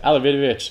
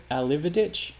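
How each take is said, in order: First: Alividovic said louder with added syllables, falling decisively; settled long version of "Alividovic", falling at the end; extra syllables. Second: Alividic with fewer syllables, voice rising as a question; questioning short version of "Alividic"; unsure pronunciation. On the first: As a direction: declare "Alividovic" firmly, every syllable in. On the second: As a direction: try out "Alividic" tentatively, rising at the end. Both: Shown as a demonstration. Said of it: "Let's add the extra syllables to his name".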